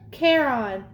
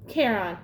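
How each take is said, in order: First: "Charon" as KAIR-on, firm and deliberate; modelling the name. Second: "Charon" echoed lower, as KAIR-on; repeating the name. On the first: Guard teaches his name, "Charon" pronounced KAIR-on for copying. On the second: Boy repeats after the guard, "Charon" echoed as KAIR-on. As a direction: dutifully copy "Charon" as KAIR-on, low and falling. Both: Acted. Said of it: "Say it with me".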